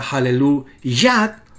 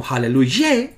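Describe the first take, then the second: First: Hallelujah slowly, ending on a clear YA; deliberate Hallelujah, final syllable ya; contrasted ending. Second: Hallelujah with the last syllable changed to YE; the wrong form of Hallelujah, final ye; contrasted ending. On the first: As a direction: sound out Hallelujah with an A in the last syllable. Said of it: "Eso explica por qué la palabra". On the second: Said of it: "no se escribe como". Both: Shown as a demonstration.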